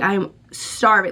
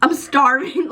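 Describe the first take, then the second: First: Said in the usual way. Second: "I'm starving" pitched higher, a hammed-up desperate quote; mock dramatic starving. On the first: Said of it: "It goes from, like". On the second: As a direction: play up the hunger, a touch theatrical. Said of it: "to, like".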